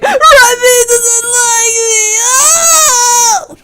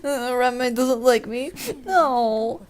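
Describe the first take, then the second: First: It is said in a wild, over-the-top way. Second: It is said in a calm, restrained way.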